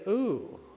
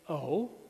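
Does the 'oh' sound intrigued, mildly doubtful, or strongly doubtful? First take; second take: strongly doubtful; mildly doubtful. First: It sounds like strong disagreement. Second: It sounds like mild disagreement.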